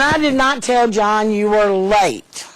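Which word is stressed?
late. The word late carries the strongest stress. Something other than lateness was said. "I told him something else about you"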